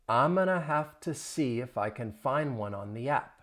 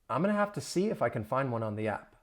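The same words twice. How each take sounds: First: The sentence is spoken at a slow pace. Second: The sentence is spoken at a fast pace. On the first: "I'll say it slowly" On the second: "Say it faster"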